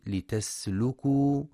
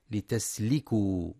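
First: لتسلكوا with a u vowel on the lam before waw. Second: لتسلكوا with an i vowel on the lam; mock mistake; wrong i on lam. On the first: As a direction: say لتسلكوا as "litaslukū". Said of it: "لضم اللام". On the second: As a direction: show the error: "litasliku". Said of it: "فلا يقرأ بكسرها". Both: Shown as a demonstration.

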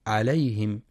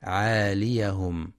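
First: عليهم without the long a, marked wrong; faulty عليهم, short a; wrong reading. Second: عاليهم with a long a after ع, slow; dagger alif kept. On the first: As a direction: show the mistake عليهم, a short. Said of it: "فلا يقرأ". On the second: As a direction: stretch the a in عاليهم. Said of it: "للألف الخنجرية". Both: Shown as a demonstration.

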